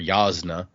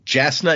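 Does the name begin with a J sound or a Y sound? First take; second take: Y sound; J sound. First: The name begins with a Y sound. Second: The name begins with a J sound. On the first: The speaker calls it right. "It's Yasna or Yasna" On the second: The speaker calls it wrong. "Jasna is how I said it when I first read it. That is not in fact correct"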